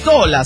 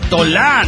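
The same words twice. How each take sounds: First: The stress is on the first syllable. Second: The stress is on the last syllable. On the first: The speaker calls it right. "La pronunciación es Tola, sin acento" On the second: The speaker calls it wrong. "deja de pronunciar Tola. No te sé el acento en la A"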